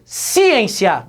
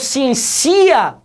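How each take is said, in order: First: The stress is on the first syllable. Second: The stress is on the last syllable. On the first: "não falo" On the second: "também não"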